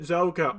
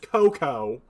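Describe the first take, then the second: First: The name begins with a Z sound. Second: The name begins with a K sound. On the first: This is the pronunciation chosen because it sounds cooler. "I'm pronouncing it Zoko" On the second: This is how an online tool pronounces it. "Google pronounces that is Coco"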